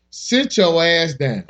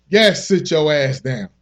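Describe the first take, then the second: First: Slow, drawn-out title read; slow emphatic title. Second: Slow, firm order; slow stern repeat. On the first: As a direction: lay each word down slowly. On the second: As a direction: drag it out like a scolding. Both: Shown as a demonstration.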